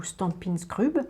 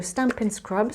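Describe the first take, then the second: First: Stampin' Scrub said slowly the French way, "stan-pine skrub" with a French r; Frenchify Stampin' Scrub, skrub with a rolled French r; French accent. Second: Stampin' Scrub said the English way, scrub like "scrub"; Stampin' Scrub with an English-style pronunciation. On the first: Crafter jokingly renames the tool to viewers, slow French accent. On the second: Crafter naming the tool to viewers, English pronunciation. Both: Shown as a demonstration. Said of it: "avec l'accent français".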